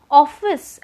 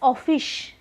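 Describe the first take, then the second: First: The word has a standard English pronunciation. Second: The word has a Bengali-influenced pronunciation.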